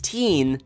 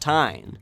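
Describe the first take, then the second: First: The ending has a long 'ee' vowel. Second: The ending has an 'eye' vowel sound. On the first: The speaker calls it right. "make sure that you pronounce the end of his name as teen" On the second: The speaker calls it wrong. "not tine"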